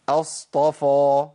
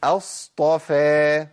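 First: اصطفى slow with a thick, full-mouthed فاء; heavy faa. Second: اصطفى slow, the فاء light and thin; correct thin faa. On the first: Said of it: "الخطأ فين يا شيخ؟". (اصطفى بفاء مفخمة) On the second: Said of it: "ده صح". (اصطفى بفاء مرققة) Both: Shown as a demonstration.

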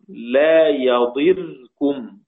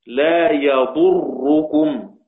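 First: "يضركم" said slowly as yaḍirkum, kasra on the ḍād and the rā' silent; slow recital of "يضركم" as yaḍirkum; yadirkum reading. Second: "يضركم" said slowly as yaḍurrukum, ḍamma on the ḍād and a doubled rā' with ḍamma; slow recital of "يضركم" as yaḍurrukum; yadurrukum reading. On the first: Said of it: "يضركم بكسر الضاد وسكون الراء". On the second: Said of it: "ضم الضاد وضم الراء مشددة". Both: Shown as a demonstration.

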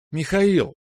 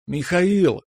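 First: Put-on high, ringing girlish cry; ringing call. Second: High, long sing-out of a name; drawn-out call. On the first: Natasha bursting in on Mikhail, high ringing call. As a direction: ring the name out high and quicker. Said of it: "прозвенела девушка". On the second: Natasha running into the corridor for Mikhail, drawn-out call. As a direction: call out for him, stretching the last vowel. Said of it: "С протяжным зовом". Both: A narrator's reading.

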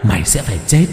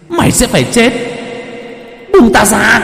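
First: Said in the usual way. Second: High, loud demonic shriek; demonic threat. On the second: Acted. Possessed girl shrieks death threat at Thạnh, high and loud. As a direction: curse him with a spirit's voice. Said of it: "gằn lên từng tiếng".

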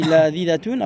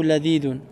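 First: "ladidatun" with the extra -at- syllable before -un; feminine ending. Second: "ladidoun" ending straight in -doun; masculine ending. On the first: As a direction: offer "ladidatun" as the first option, ending -datun. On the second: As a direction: offer "ladidoun" as the second option, no -at- syllable. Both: Shown as a demonstration. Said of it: "Tu dis ladidatun ou ladidoun?".

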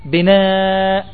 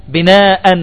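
First: Said in the usual way. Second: "بناء" pronounced binaa-an; tanween with fatha. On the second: Shown as a demonstration. Teacher gives another tanween example, "بناء" ending -an. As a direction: close "بناء" on an added -an. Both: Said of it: "يوضع التنوين على الهمزة".

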